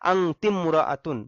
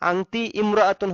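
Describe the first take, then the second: First: The words are linked, with 'i' dropped. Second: The two words are separate, with 'i' sounded. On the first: "এখানে আলিফটা উচ্চারণে আসবে না" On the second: "হয় স্বাভাবিক নিয়মে"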